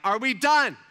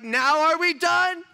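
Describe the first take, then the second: First: Loud, raised challenge; sharp, louder confrontation; retold angry demand. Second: High, slow, very loud demand; full-volume retold ultimatum; exasperated yell. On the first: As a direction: demand it from on top of him. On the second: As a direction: shout it slowly, at the end of your patience. Second, escalated retold confrontation.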